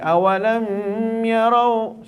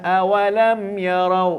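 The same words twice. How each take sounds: First: The m is held with a nasal hum. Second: The m is said plainly without a nasal hum. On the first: The speaker calls it wrong. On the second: The speaker calls it right.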